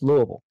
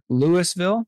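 First: The word is said mumbled and swallowed together. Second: The word is said clearly, syllable by syllable. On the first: The speaker is a local. The speaker calls it right. "we all say it like we've got a bunch of bourbon and marbles in our mouth" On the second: The speaker is not from the area. The speaker calls it wrong. "I can tell immediately if somebody's not from here because they'll say Louisville"

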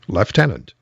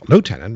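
First: The first syllable sounds like 'left'. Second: The first syllable sounds like 'loo'. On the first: "it was the British way of doing it, of saying it" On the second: "Lieutenant makes more sense"

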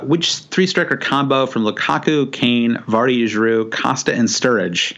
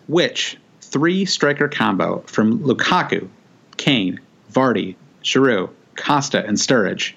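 First: The question is read at a quicker pace. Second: The question is read at a slower pace.

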